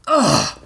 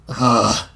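First: High, sudden pained ugh; raised-pitch pained cry. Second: Groaned ugh at usual pitch; pained groan. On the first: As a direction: yelp as if struck on a sore side. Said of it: "Dunk cried". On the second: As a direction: groan from a sore side. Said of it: "he groaned". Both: A narrator's reading.

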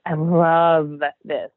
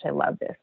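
First: LOVE stretched out long, slow and louder; stress on LOVE. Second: Said in the usual way. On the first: Retold or imitated. Artist reliving her joy at painting, LOVE drawn out with emphasis. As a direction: lean hard and long on the word LOVE.

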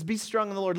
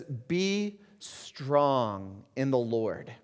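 First: Said in the usual way. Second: Each word drawn out, slow and weighty; solemn slow scripture quote. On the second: Acted. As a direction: let "Be strong in the Lord" hang, very slowly. Quoting Paul slowly.

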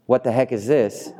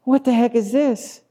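First: Said in the usual way. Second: High-pitched incredulous crowd voice; comically high, baffled complaint; baffled grumblers. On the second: Acted. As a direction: squeal it in mock bewilderment. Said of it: "they, and they go".

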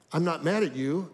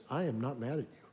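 First: Said in the usual way. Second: Soft, quiet and steady, eye to eye; sincere reassurance. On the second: Retold or imitated. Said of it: "I could tell she was fully telling me the truth".

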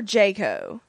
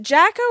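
First: "Jaco", first syllable rhyming with day; long-a pronunciation. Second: "Jacko", first syllable rhyming with back; short-a pronunciation. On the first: Co-host checking a character's name, "Jaco" with a long a. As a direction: say "Jaco" as JAY-koh. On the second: Co-host checking a character's name, "Jacko" with a short a. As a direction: say "Jacko" with the a of "jack". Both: Shown as a demonstration. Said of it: "is it Jacko or Jaco".

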